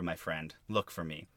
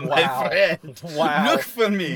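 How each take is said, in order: First: It is said in the speaker's ordinary accent. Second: It is said in a put-on German accent. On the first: "you didn't even do the German accent" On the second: "if I tried to do the"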